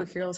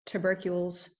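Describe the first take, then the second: First: "tubercules" with a full "too" first syllable; "tubercules" opening on a clear "too"; alternate pronunciation. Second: "tubercules" with a short, reduced first syllable; "tubercules" opening on a quick "tuh"; alternate pronunciation. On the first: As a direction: say "tubercules" as TOO-ber-kyools. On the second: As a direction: say "tubercules" as tuh-BER-kyools. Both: Real, not acted. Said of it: "however you say that".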